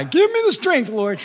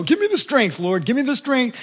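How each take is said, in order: First: Very high, strained begging; hammed-up desperate prayer, pitched way up; desperate mock plea. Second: High, pleading repetition; acted-out anxious supplication; pleading mock prayer. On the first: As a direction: plead as if at the end of your rope. Same plea a year later. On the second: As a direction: beg God for strength in a put-on voice.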